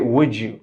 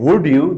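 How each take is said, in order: First: The d sound merges into a j sound. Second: The d sound is kept clear and separate. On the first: "they say" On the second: "Instead of saying"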